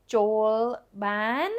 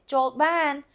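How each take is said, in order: First: "Joel ban" asked with rising tune on "ban"; rising question. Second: "Joel ban" said firmly, tune falling on "ban"; falling statement. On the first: Teacher mistakenly models "Joel ban" as a rising question. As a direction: lift "ban" up as if asking. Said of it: "would be a question". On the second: Host inside answering the knock, "Joel ban" falling as come in. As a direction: drop "ban" down as a plain invitation. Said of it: "what somebody would say from the inside". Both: Shown as a demonstration.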